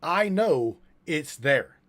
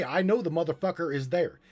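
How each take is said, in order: First: Slow, loud, word-by-word quote; raised voice, drawn-out delivery; emphatic quote. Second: Quoted claim. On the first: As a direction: quote it deliberately, spacing out each word. Repeats the claim after "Quote. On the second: Quoting the other speaker's claim. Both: Retold or imitated.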